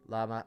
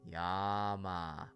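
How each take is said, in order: First: The word begins with an L sound. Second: The word begins with a Y sound. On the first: The speaker calls it wrong. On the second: The speaker calls it right.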